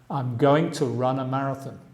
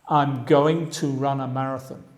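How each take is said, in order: The two takes are said the same way.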